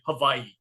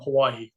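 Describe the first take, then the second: First: It is said with the local Hawaiian pronunciation. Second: It is said with the everyday English pronunciation.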